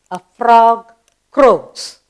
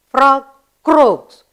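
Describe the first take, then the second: First: Slow spelling-lesson drill. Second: Said in the usual way. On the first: Shown as a demonstration. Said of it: "Spell croaks". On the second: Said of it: "What noise does it make?".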